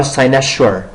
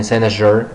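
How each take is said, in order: First: "cynosure" said SIGH-na-shur, with voiceless sh; hushed sh sound in the middle of "cynosure"; sh pronunciation. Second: "cynosure" said SIGH-na-zhur, with voiced zh; zh pronunciation. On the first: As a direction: read the s in "cynosure" as sh. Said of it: "You could pronounce it in three ways". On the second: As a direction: read the s in "cynosure" as zh. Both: Shown as a demonstration.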